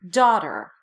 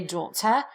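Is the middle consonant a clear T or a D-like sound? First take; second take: D-like; clear T. First: The middle consonant is a soft D. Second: The middle consonant is a clear T. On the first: It is how Americans say it. "We won't" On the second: It is how speakers outside America say it. "other English-speaking countries will pronounce that T"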